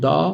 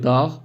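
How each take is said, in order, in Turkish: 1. Ünlü uzun ve sert bir g yok. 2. Ünlü kısa ve sonunda sert bir g var. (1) "o ünlüyü uzatıyormuş gibi oluyor Türkçede" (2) "Yani biraz daha sert"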